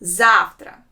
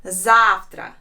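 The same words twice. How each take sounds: First: Завтра with ZAF hit hard, tra light; stress on the first syllable. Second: Завтра said ZAF-tra; model word. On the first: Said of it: "the stress is on the first letter A". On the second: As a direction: repeat Завтра clearly. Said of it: "sounds завтра". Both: Shown as a demonstration.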